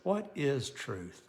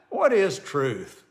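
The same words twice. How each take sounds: First: It is said in a worried, earnest tone. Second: It is said with a scoffing, dismissive laugh. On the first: The asker is uneasy and wants no part in condemning him. "he's thinking, "Uh-oh, I don't want to be a part of anything against this man."" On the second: The asker dismisses the idea of truth.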